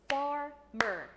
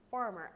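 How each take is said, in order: First: "Farmer" in two loud, separate beats; split into syllables. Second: Said in the usual way. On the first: Shown as a demonstration. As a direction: clap out "Farmer" syllable by syllable, loudly. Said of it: "divide it into syllables". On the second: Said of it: "I want to divide it into syllables".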